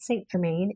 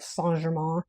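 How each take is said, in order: First: It is said with an American English pronunciation. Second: It is said with a French-style pronunciation. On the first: "if we're going to say it like a U S citizen" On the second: "I think that's how you say it"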